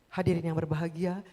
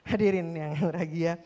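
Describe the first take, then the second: First: It is said in a solemn, dignified way. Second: It is said in a lively, showy way. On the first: It suits a formal official event. The speaker calls it right. "harus hikmat" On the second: It suits an entertainment event. The speaker calls it wrong. "Acara yang entertain boleh kayak gitu"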